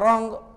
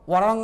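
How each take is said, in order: First: The w at the start is silent. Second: A w sound is spoken at the start. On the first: The speaker calls it right. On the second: The speaker calls it wrong. "वरंग नहीं"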